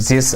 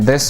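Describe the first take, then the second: First: The th is replaced in a Russian accent. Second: The th is a plain English th sound. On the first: "turning the T H ... into this" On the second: "the T H in this"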